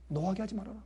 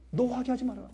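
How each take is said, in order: First: Softer, tender reading of "노하게 하지 말아라"; soft scripture. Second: Higher, stressed "노하게 하지 말아라"; preached emphasis. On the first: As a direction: read the verse gently. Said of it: "노하게 하지 말아라 (repeated)". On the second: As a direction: drive the verse home. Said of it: "repeated verse". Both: Shown as a demonstration.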